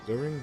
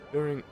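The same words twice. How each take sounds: First: The word is said in a breathy voice. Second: The word is said in a plain voice. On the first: The speaker calls it right. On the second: The speaker calls it wrong.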